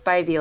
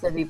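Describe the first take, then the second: First: The first vowel is a long 'eye' sound. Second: The first vowel is a short 'ih' sound. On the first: The speaker calls it right. "like Spidey senses" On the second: The speaker calls it wrong. "Everyone says Spivey"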